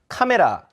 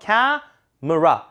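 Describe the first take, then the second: First: The middle syllable has a full vowel. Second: The middle syllable is weakened to a schwa. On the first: The speaker calls it wrong. "이러면 참 원어민 이해하기 힘듭니다" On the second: The speaker calls it right. "중간 음절을 약화시켜서"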